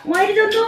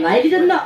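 First: Gyeongsang dialect. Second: Said in the usual way. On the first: Shown as a demonstration. Performer demonstrating the Gyeongsang version for the crowd, Gyeongsang dialect. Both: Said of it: "경상도 버전입니다".

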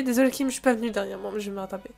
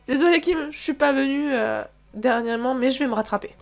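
First: Said in the usual way. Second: Acted apology. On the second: Player apologising to Kim for not coming lately, apologetic.

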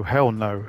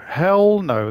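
First: Said in the usual way. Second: Higher and louder, mock horror; emphatic louder refusal. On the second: Real, not acted. Refusing the tutorial with a louder mock-horrified no. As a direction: shout it down like no way.

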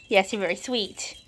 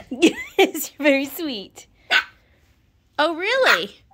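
First: Said in the usual way. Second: High, loud cooing, laughing into it. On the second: Real, not acted. Owner praising her puppy, high gushing baby talk.

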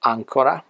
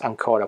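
First: "ancora" stressed on AN, "ÀNcora"; stress on first syllable. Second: "ancora" stressed on CO, "anCOra"; stress on second syllable. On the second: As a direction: lean on the middle syllable of "ancora". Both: Shown as a demonstration. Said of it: "use the stress to avoid confusion".

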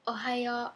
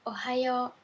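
No difference in how they are said.

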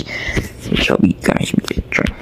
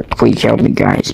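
First: Slow, breathy pleading whisper. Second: Said in the usual way. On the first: Pretend. Voiced cat whispering a plea to the guys. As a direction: beg for help under your breath.

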